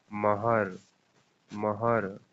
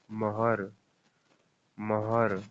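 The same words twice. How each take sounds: The two takes are said the same way.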